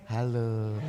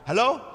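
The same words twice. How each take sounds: First: It is said softly, voice lowered. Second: It is said at normal loudness.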